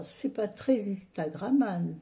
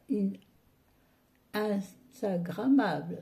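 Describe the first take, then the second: First: Said in the usual way. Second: Slow, syllable by syllable Instagrammable; drawn-out Instagrammable. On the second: Shown as a demonstration. A vlogger stretching Instagrammable for her viewers, drawn out. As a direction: spell out In-stagrammable slowly.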